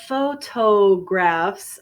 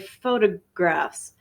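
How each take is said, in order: First: The T is said as a clear T. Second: The T is reduced and sounds like a D. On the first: "Instead of photographs" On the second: "the T is also reduced... sounds like a D"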